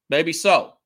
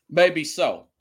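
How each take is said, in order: Both takes have the same delivery.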